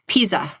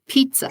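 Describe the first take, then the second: First: The middle t sound is dropped. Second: The middle t sound is present. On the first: The speaker calls it wrong. "in a hard of hearing accent, there are a lot of folks who say Pisa" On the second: The speaker calls it right. "but it's pizza"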